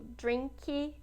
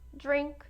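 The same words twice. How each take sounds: First: An extra 'ee' vowel follows the final consonant. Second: The word ends cleanly on the final consonant. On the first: The speaker calls it wrong. "tá errado" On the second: The speaker calls it right. "já memorizem de forma correta"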